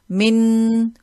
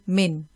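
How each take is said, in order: First: The final n is held as a long nasal hum. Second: The final n is short with no nasal hum. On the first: The speaker calls it wrong. "we won't prolong, we won't say min" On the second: The speaker calls it right. "we will just say min"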